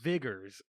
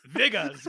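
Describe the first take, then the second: First: The word ends with an 'er' sound. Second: The word ends with an 'ah' sound.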